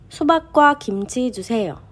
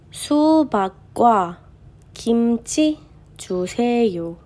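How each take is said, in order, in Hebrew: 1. המשפט נקרא בקצב המהיר ביותר. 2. המשפט נקרא בקצב איטי.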